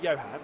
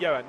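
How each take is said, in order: First: The opening H sound is clearly pronounced. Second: The opening H sound is left silent. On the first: The speaker calls it wrong. "not Johann" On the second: The speaker calls it right. "you wouldn't say the H"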